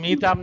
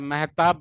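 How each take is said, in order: First: The first vowel is a long 'ee' sound. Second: The first vowel is an 'eh' sound. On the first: The speaker calls it wrong. "मीताब नहीं बताया था" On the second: The speaker calls it right. "मेहताब बताए थे"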